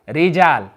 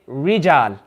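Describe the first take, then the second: First: The first sound is the Arabic ra. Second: The first sound is an English r. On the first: The speaker calls it right. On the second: The speaker calls it wrong.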